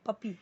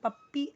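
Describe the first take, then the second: First: The middle p is single and light. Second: The middle p is doubled and forceful. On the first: The speaker calls it right. "पप्पी ही बोलना है normally" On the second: The speaker calls it wrong. "पप्पी ऐसे नहीं पढ़ना है"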